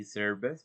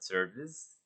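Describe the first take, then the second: First: "service" ending in a hissed, voiceless s; "service" with no buzz on the last sound; wrong pronunciation demo. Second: "service" ending in a vibrating z; "service" with a voiced z ending; correct pronunciation demo. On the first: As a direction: show the mistake: "service" with an s sound at the end. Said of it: "we don't say service". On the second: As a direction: buzz the tongue on the last sound of "service". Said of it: "we have to vibrate our tongue to express the Z". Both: Shown as a demonstration.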